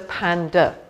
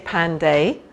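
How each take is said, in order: First: The final vowel is swallowed and reduced. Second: The final vowel is pronounced fully and clearly. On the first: The speaker calls it right. "we go panda, and we sort of swallow it" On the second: The speaker calls it wrong. "we don't say panday"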